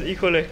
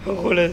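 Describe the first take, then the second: No difference in how they are said.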